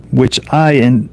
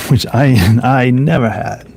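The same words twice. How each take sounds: First: Said in the usual way. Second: Laughing reread. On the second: Real, not acted.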